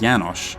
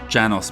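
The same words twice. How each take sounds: First: The name is said with a Hungarian pronunciation. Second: The name is said with an English pronunciation. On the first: The speaker calls it right. "a Hungarian-descended name" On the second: The speaker calls it wrong. "that's just what seemed right at the time"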